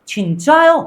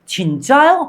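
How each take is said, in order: No difference in how they are said.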